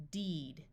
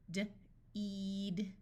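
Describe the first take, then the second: First: Said in the usual way. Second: D alone, a pause, then a drawn-out "eed"; sounded out. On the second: Shown as a demonstration. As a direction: break "D-eed" into its sounds slowly. Phonics teacher sounds out, then blends.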